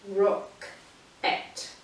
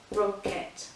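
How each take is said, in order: First: Whispered rock-et, slow, with a gap; slow two-part rock-et; split into syllables. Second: Said in the usual way. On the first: Shown as a demonstration. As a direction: separate rock-et into two beats. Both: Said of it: "that's where we break it up".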